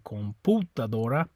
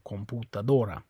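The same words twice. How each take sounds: First: The stress is on the second syllable pu. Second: The stress is on the fourth syllable do. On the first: The speaker calls it wrong. "it's not the U, or you'd say" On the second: The speaker calls it right. "it's on the O"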